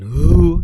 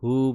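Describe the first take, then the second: First: The h is forceful and strong. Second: The h is soft and weak from the throat. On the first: The speaker calls it wrong. "bukan hu" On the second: The speaker calls it right. "Dengan karakter yang lemah"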